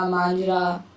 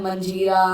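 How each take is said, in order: First: मांझरा said with a long nasal first vowel and no middle vowel: maanjh-ra; मांझरा, two syllables, long maan; Manjhra spelling. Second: मंझीरा said with a short first vowel and a long ee: mun-jhee-ra; मंझीरा, three syllables, stress on झी; Manjhira spelling. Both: Shown as a demonstration. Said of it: "बहुत तरीके से लिखा जा सकता है".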